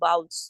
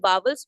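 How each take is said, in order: First: The middle w sound is left silent. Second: The middle w sound is clearly heard. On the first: The speaker calls it right. "इसे हम अक्सर silent रखते हैं" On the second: The speaker calls it wrong. "हम इन्हें वावल्स पढ़ते थे"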